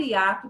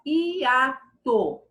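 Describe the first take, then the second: First: Said in the usual way. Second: Hiato slowly split i, a, to; syllable by syllable. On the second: Shown as a demonstration. Teacher showing the word's syllables, slowly separated. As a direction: stretch hiato into three separate beats. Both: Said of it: "o i fica numa sílaba".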